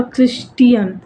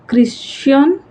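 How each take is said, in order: First: "Christian" slowly in three syllables, KRIS-TEE-un, with a falling end; pronounced KRIS-tee-un. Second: "Christian" in two syllables with a questioning rise; pronounced KRIS-chun. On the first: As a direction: sound out the t in "Christian" as a separate "tee". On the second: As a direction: say "Christian" as KRIS-shun, lifting the end as if unsure. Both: Shown as a demonstration. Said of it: "I don't know how to pronounce his name".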